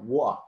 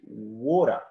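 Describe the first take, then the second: First: It is said in a British accent. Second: It is said in an American accent.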